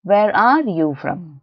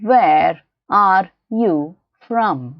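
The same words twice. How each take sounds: First: Slow, connected teaching delivery; measured repeat. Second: Very slow, each word set apart; word-by-word model. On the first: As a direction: join the words but keep it careful. Teacher repeats the sentence more connected. (ಜೋಡಿಸಿ ನಿಧಾನವಾಗಿ) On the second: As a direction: spell the sentence out word by word. Teacher models sentence word by word. (ಪದ ಪದವಾಗಿ ತುಂಬಾ ನಿಧಾನವಾಗಿ) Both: Shown as a demonstration.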